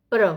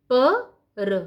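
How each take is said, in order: First: प्र as one short joined sound; blended cluster. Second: प, a pause, then र; split into sounds. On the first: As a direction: run प straight into र as प्र. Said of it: "कैसे हम पढ़ते हैं". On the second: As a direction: say प and र as two separate sounds. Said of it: "फिर पदेन". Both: Shown as a demonstration.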